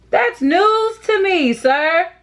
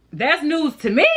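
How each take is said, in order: First: Higher, slower, mock outrage; mock shocked sarcasm. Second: Flat sarcastic aside; dry sarcasm. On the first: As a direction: drag it out, exaggerated disbelief. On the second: Acted. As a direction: say it like it surprises no one. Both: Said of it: "repeated with more bite".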